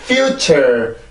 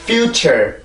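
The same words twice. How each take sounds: First: "future" with -ture dropped away; abrupt falling second syllable. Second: "future" with -ture coming up once more; second syllable lifted. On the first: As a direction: let the end of "future" plunge, unstressed. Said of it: "그냥 자연스럽게 뚝 떨어지면". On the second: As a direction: give -ture in "future" its own light stress. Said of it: "한 번 더 올라와야 된다고". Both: Shown as a demonstration.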